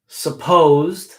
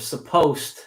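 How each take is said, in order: First: The word is said carefully and in full. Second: The word is said quickly with reduced sounds. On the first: This is the word on its own. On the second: This is how it sounds in a sentence.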